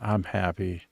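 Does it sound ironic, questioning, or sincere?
ironic. It is said with an ironic tone. The speaker is not actually happy. "it doesn't sound like I'm happy. I said"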